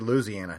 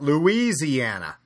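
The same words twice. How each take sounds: First: The name is said the local, homegrown way. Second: The name is said the outsider, non-local way. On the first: The speaker is a native of the state. The speaker calls it right. "you and I are the only two that get to say Louisiana" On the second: The speaker is not from the state. The speaker calls it wrong. "not Louisiana"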